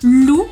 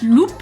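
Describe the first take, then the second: First: The final p is silent. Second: The final p is pronounced. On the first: The speaker calls it right. "you're not going to pronounce it either" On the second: The speaker calls it wrong. "and not"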